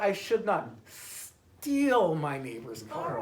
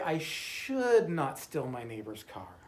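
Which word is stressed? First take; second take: steal; should. First: The stress is on "steal". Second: The stress is on "should".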